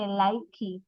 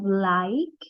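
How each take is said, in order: First: The final e is sounded as an extra syllable. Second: The word ends on the k sound alone. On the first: The speaker calls it wrong. "We cannot say likey" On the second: The speaker calls it right. "So when we combine, we have like"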